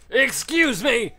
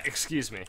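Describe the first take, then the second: First: "Excuse me!" yelled high and slow, dragged out; loud high excuse me. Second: Said in the usual way. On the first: Real, not acted. Gamer yelling at a monster, loud high excuse me. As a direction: shout "Excuse me!" in a put-on high voice.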